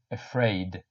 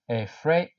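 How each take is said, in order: First: Said in the usual way. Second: "Afraid" with the I clearly sounded; pronounce the I. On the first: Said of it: "Don't forget to pronounce the I". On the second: Shown as a demonstration. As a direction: stretch "Afraid" so its I is heard. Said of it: "You need to pronounce the I".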